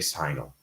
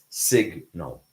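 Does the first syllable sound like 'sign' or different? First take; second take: like sign; different. First: The first syllable sounds like the word sign. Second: The first syllable does not sound like sign. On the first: The speaker calls it wrong. "Never say signal" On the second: The speaker calls it right. "It's signal"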